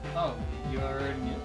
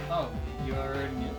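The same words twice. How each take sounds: First: The line is said in a sad tone. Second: The line is said in a sad tone.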